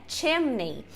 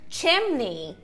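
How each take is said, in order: No difference in how they are said.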